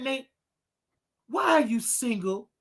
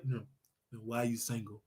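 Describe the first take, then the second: First: Said in the usual way. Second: Much lower and softer, deep put-on voice. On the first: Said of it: "put on my deep voice". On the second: Asking Nate why he is single, in a deep put-on voice. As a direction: drop the voice low to sound manly. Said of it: "Talk, put on my deep voice".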